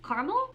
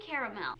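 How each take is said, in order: First: Caramel clipped to car-mel, rising like a question; trying out the other way to say Caramel, car-mel; caramel, two syllables. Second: Caramel said as care-uh-mel with three full syllables; answering how she says the word, caramel as care-uh-mel. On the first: Caramel as car-mel with a questioning rise. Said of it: "I think I say both". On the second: Caramel as care-uh-mel, each syllable spoken. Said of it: "What do you say?". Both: Shown as a demonstration.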